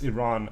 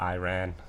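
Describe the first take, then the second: First: Iran is said with a non-American pronunciation. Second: Iran is said with an American pronunciation. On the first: The speaker calls it right. "It's Iran and Iraq" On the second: The speaker calls it wrong. "It's crazy how Americans say Iran"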